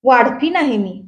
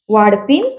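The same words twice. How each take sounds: First: Said in the usual way. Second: "वाढपीण?" starting low, rising sharply at the end; low start on "वाढपीण?", then a steep questioning lift; incredulous echo question. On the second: A narrator's reading. Sister-in-law echoes the answer in disbelief.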